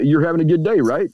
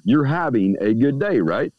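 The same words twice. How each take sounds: First: Questioning tone rising at the end; asking, questioning. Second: Slow, sure statement, no question in it; telling, certain. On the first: Speaker greeting a stranger, asking with a questioning rise. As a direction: ask it as if checking on them. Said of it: "You don't ask them if they're having a good day". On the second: Speaker telling a stranger they're fine, slow and certain. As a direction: tell them, don't ask. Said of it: "You tell them they are". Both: Shown as a demonstration.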